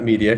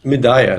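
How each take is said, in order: First: The name sounds like the ordinary word 'media'. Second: The middle vowel sounds like 'ay', then 'a'. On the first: The speaker calls it wrong. "not media" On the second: The speaker calls it right. "it's Medaya"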